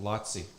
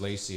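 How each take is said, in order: First: The first vowel sounds like 'ah', with a 'ts' sound. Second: The first vowel sounds like 'ay', ending with 's'. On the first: The speaker calls it right. "It's actually pronounced" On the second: The speaker calls it wrong. "I have to correct my pronunciation of"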